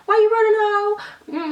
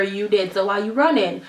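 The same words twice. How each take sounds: First: Much higher, drawn-out, louder taunt; mock taunt. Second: Said in the usual way. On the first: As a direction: stretch it out like a squealing dare. Mock taunt to ghost, repeated.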